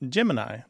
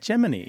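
First: It is said the common way, unlike 'Jiminy'. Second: It is said to sound like 'Jiminy'. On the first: This is the everyday pronunciation, as for the sun sign. "Most people say Gemini" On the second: This is the insider pronunciation used in the space program. "in the space program, they pronounce it Gemini"

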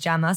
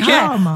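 First: The name is said in a plain, everyday way. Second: The name is said in a posh-sounding way. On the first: This is the family's original pronunciation. "My nan, who is actually the original Jama, says Jama, so really it should be that" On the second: This version was adopted to sound more refined. "I was trying to be posh one day when I started doing telly"

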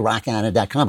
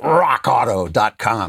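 First: It is said flatly, without energy. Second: It is said with strong energy.

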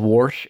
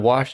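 First: The word is said with an r sound. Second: The word is said without an r sound. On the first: The speaker calls it wrong. "anybody who fucking says wash" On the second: The speaker calls it right. "There's no R in wash"

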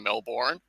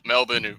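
First: It is said in an American accent. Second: It is said in an Australian accent. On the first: This is how outsiders say it. "a lot of Americans go with the Melbourne" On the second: This is how locals say it. "Melbourne would be how we say it"

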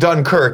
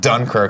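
First: It is pronounced in a European-sounding style. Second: It is pronounced in a plain American style. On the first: The speaker acts sophisticated and high-minded. "pronounce it like that" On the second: The speaker talks like an ordinary American. "like a fucking American"

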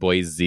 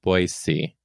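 First: The middle consonant is a buzzing Z sound. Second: The middle consonant is a hissing S sound. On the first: The speaker calls it wrong. "you don't pronounce Boise like Boise" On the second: The speaker calls it right. "You're supposed to pronounce it Boise with an S, not a Z"

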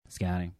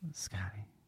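First: It is said at a louder volume. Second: It is said at a softer volume.

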